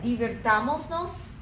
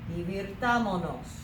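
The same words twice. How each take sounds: First: An s sound is kept before the final nos. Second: No s sound comes before the final nos. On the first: The speaker calls it wrong. "it doesn't sound right" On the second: The speaker calls it right. "drop that S right there in the middle and just say"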